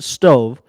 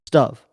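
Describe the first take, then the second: First: The vowel is long, rhyming with grove. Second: The vowel is short, rhyming with dove. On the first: The speaker calls it wrong. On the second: The speaker calls it right. "I pronounce it stove"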